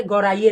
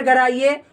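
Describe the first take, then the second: First: "गौराइए" with an au sound in the first syllable; wrong vowel. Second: "गराइए" with a short a in the first syllable; corrected vowel. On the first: Teacher showing the slip to avoid, "गौराइए" said with gau. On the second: Teacher correcting the slip, "गराइए" said with short ga. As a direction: say "गराइए", opening on ga, not gau. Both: Shown as a demonstration. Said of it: "गौराइए नहीं".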